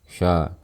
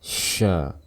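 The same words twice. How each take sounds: First: The sh is said with a light airflow. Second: The sh is said with much more breath. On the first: "Kalau biasanya kita lafalkan seperti ini" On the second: "Dorong lagi nafasnya. Keluarkan nafasnya lebih banyak"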